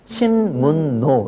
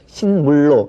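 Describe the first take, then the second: First: The l is changed to n, giving n-n. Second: The n is changed to l, giving l-l. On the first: The speaker calls it right. "리을을 니은으로 바꿨어요" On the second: The speaker calls it wrong. "이거는 아무도 그렇게 발음을 하지 않죠"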